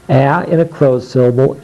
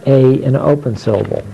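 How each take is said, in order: First: A said "aa" as in cat; short A sound. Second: A said as its letter name, "ay"; long A sound. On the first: Teacher demonstrating closed syllables, A as short "aa". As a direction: say A short, not as the letter name. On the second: Teacher demonstrating open syllables, A as long "ay". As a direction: say A long, as in game. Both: Shown as a demonstration.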